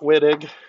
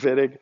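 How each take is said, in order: First: The name is said with an English pronunciation. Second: The name is said with a German pronunciation. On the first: The speaker calls it wrong. "It's not Wittig" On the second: The speaker calls it right. "It's a German guy"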